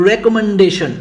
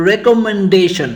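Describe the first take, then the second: First: Said in the usual way. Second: recommendation divided into distinct syllables. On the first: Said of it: "Let's see another one". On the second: Shown as a demonstration. Teacher showing another word split up, recommendation syllable by syllable. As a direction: say recommendation piece by piece, syllables slightly apart. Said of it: "সিলেবলে ভাগ করি তাহলে দাঁড়ায়".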